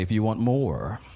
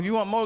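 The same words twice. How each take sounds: First: More is said with its full final r sound. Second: More is said as mo, with no final r. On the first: The word no longer rhymes with flow. "when you say it correctly" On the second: The word rhymes with flow. "But it works with mo. Mo and flow work together"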